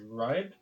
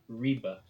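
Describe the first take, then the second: First: The name is said in an anglicized way. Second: The name is said in a Danish-style way. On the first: The speaker calls it wrong. "I had been calling this city" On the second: The speaker calls it right. "but actually it is pronounced, I believe"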